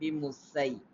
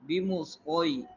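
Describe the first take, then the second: First: The s sound is thin and light. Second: The s sound is thick and heavy. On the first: The speaker calls it wrong. "rather than" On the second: The speaker calls it right. "in a thick tone"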